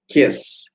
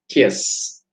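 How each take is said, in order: No difference in how they are said.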